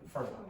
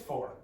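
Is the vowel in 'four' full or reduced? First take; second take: reduced; full. First: The word is reduced to a weak 'fur'. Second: The word has a full, clear vowel. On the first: The speaker calls it right. "When you're speaking quickly, you say fur" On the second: The speaker calls it wrong. "Nobody says four"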